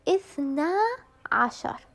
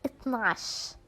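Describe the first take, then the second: First: It is said in the full formal form. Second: It is said in a shortened colloquial form. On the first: This is the proper standard form. "اثنا عشر means twelve" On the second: This is how people commonly say it. "people commonly or mostly they say"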